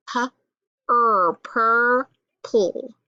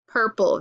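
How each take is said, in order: First: "purple" broken into slow sounds, pu, er, pur, pull; sounded out. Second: Said in the usual way. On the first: Shown as a demonstration. Teacher decoding a word for pupils, sounded out. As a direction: stretch each sound of "purple" with gaps between. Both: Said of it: "Let's try to sound it out".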